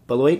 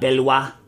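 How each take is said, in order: First: The name is pronounced the English way. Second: The name is pronounced the French way. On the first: The speaker calls it right. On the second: The speaker calls it wrong.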